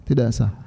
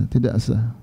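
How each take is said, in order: The two takes are said the same way.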